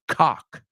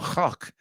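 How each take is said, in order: First: It is said with an American pronunciation. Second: It is said with a non-American pronunciation. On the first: "so it doesn't sound like cock" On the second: "I'm trying not to pronounce it like the American word"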